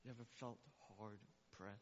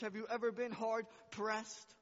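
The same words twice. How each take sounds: First: Hushed question. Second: Loud, high, pressing question; loud preaching question. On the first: Pastor speaking softly to the hurting, hushed question. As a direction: drop to a near hush, lean in. Sudden hush after shouting. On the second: Pastor challenging his church, loud preaching question. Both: Acted.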